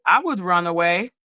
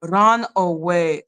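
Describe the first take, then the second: First: Said in the usual way. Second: Drawn-out low quote; slow low run away. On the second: Retold or imitated. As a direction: drag it out low. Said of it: "Maybe she ran away".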